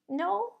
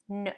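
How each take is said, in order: First: It is high, quiet and squeaky. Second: It is strong, low and firm.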